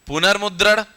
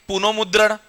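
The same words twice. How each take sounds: First: पुनर्मुद्रण with r before मुद्रण; correct exception form. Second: पुनोमुद्रण with o after पुन; regular-rule wrong form. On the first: Teacher giving what is really written, correct r-form. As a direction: say पुनर्मुद्रण, sounding r in place of o. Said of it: "हम क्या लिखते हैं इसको वास्तव में". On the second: Teacher showing what the rule would give, wrong o-form. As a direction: say पुनोमुद्रण, an o in place of the r. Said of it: "लेकिन हम क्या लिखते हैं इसको वास्तव में". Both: Shown as a demonstration.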